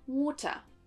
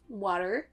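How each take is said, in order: First: British accent, the final r is dropped. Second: American accent, the final r is pronounced. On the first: "l'accent U K ensuite" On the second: "l'accent U S d'abord"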